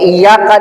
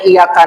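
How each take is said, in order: First: The Y sound is doubled and held. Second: The Y sound is single and quick. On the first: It means only to you. The speaker calls it right. "dibaca tasdid" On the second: It means sunlight. The speaker calls it wrong. "tidak pakai tasdid"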